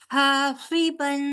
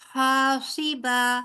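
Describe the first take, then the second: First: The word ends in -an, linked onward. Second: The word ends in a plain -a, then stops. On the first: The reading continues without stopping. "अगर मिलाकर पढ़ेंगे तो फिर हम पढ़ेंगे हासिबन" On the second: The reader pauses at the end of the verse. "क्योंकि हम वक्फ करेंगे इसलिए हम पढ़ेंगे हासिबा"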